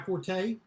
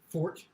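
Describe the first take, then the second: First: The word is said with two syllables. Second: The word is said with one syllable. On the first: This is the usual, conventional way to say it. The speaker calls it wrong. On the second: This is the proper, original way to say it. The speaker calls it right.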